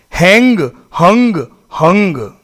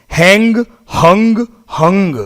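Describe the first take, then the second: The two takes are said the same way.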